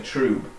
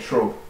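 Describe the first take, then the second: First: The vowel is long, rhyming with 'pube'. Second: The vowel is short, rhyming with 'pub'. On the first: The speaker calls it wrong. "some people say trube ... trube sounds too much like pube" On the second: The speaker calls it right. "I say trub, ... think trub and pub"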